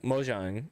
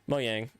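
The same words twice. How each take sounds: First: The middle consonant has more of a G sound. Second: The middle consonant is said as a Y sound. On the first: This is how the company's own staff say it. "they get a bit more of the G in there" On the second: This is the speaker's own preferred way. "I prefer to just use the Y pronunciation"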